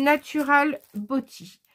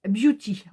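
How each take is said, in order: First: "Beauty" said as "boti", French style; "Natural Beauty" with French vowels, "Beauty" as "bo-ti"; French-accented English. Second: "Beauty" said as English "byoo-ti"; self-correcting to "Beauty" with a "byoo" onset; corrected English. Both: Shown as a demonstration. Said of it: "moi et l'accent anglais".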